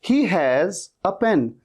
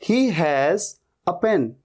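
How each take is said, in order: The two takes are said the same way.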